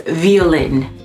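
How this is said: It is said with a French pronunciation. "everything came up in French and it was"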